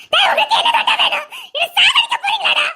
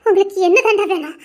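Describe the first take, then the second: First: Anguished shout. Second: Said in the usual way. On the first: Acted. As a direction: scream it out in despair. Breaking down at him. (வேதனையுடன் கத்தல்)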